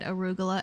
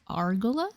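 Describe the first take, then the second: First: The word is said with four syllables. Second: The word is said with three syllables. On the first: The speaker calls it right. "read arugula as" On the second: The speaker calls it wrong. "one of Noah's friends read arugula as argula"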